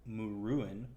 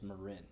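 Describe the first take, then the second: First: The name is said as Muruin. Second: The name is said as Marin. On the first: The speaker calls it wrong. "you might think it's it's it's pronounced Muruin" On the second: The speaker calls it right. "but it's Marin because that's the way I'm pronouncing it"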